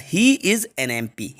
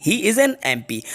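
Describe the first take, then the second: First: Slow, word by word; slow dictation. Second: Said in the usual way. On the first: Shown as a demonstration. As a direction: spell the sentence out slowly for students. (धीमे-धीमे बोलकर लिखवाना) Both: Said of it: "तो MP मतलब article एन आएगा".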